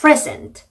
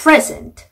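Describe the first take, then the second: Both takes have the same delivery.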